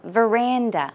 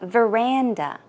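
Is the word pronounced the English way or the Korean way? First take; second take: English; English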